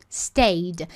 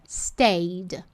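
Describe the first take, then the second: The two takes are said the same way.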